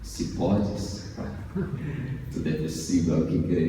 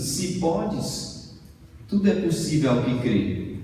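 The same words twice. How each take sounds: First: It is said in a soap-opera heartthrob voice. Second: It is said in a normal speaking voice.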